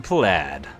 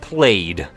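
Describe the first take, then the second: First: The vowel sounds like the one in 'bad'. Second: The vowel sounds like the one in 'made'.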